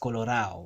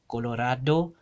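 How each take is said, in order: First: The d sound is dropped entirely. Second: The d is pronounced as a hard d. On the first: "this d gets deleted altogether" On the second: "all of these are pronounced with a hard d"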